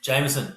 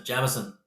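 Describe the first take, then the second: First: "Jameson" said JAYM-uh-sun; "Jameson" starting like the name James; long-A Jameson. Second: "Jameson" said JAM-uh-sun; "Jameson" starting like the word jam; short-A Jameson. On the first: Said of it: "Is it Jameson or Jameson?". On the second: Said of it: "Like jam". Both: Shown as a demonstration.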